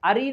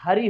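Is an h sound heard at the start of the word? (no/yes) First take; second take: no; yes. First: The word begins with a vowel sound. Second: The word begins with an h sound. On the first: The speaker calls it wrong. "अरी नहीं होगा" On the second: The speaker calls it right. "यहां हरी होगा"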